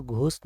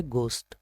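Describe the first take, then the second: First: घोस्ट with an aspirated "gh" opening; mispronunciation demo. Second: घोस्ट with a plain g, "gost"; correct pronunciation. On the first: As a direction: puff air on the g of घोस्ट. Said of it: "तो घोस्ट नहीं है". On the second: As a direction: silent h in घोस्ट, no puff after g. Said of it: "यह है". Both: Shown as a demonstration.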